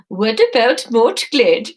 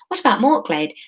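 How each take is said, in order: First: It is said in Esma's put-on voice. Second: It is said in Marine's normal voice.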